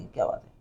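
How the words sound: It sounds like a puzzled, genuine question.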